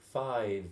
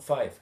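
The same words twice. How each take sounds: First: The word ends with a V sound. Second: The word ends with an F sound. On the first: The speaker calls it right. "Five with a V" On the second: The speaker calls it wrong. "not five"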